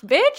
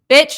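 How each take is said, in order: First: The word is said in a happy, delighted tone. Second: The word is said in a disapproving, negative tone. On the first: The news is welcome. "oh like happy like oh" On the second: The news is unwelcome. "mm-mm bitch no like the intonation changes"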